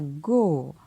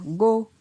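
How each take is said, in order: First: The syllable is said on a falling tone. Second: The syllable is said on a mid tone. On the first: "Et un ton descendant" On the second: "Un ton moyen"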